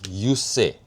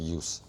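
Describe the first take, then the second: First: The name is said as two syllables. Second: The name is said as one syllable. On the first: The speaker calls it right. "so it's use say" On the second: The speaker calls it wrong. "It's not use"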